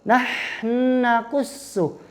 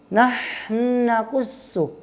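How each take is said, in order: The two takes are said the same way.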